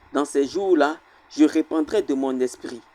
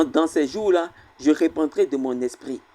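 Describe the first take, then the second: No difference in how they are said.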